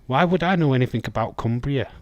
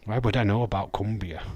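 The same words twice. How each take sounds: First: Faster and louder, playfully defensive; mock indignant. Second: Said in the usual way. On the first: Real, not acted. To chat, indignant about knowing Cumbria. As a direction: protest it with a grin in the voice.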